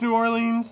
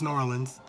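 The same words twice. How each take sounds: First: It is said in a careful, formal way. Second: It is said in a relaxed, everyday way. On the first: The speaker is being very proper. "unless it's like I'm being really proper. Then it's New Orleans" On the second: This is the speaker's normal way of saying it. "but normally it's New Orleans"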